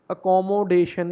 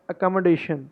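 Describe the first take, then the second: First: Accommodation drawn out as a-KAW-mo-DAY-shun; full O vowels in accommodation; wrong pronunciation. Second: Accommodation as uh-kom-uh-DAY-shun with reduced vowels; weak middle vowels in accommodation; correct pronunciation. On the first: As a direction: say accommodation slowly, syllable by syllable. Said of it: "accommodation ही". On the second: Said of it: "accommodation है ये". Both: Shown as a demonstration.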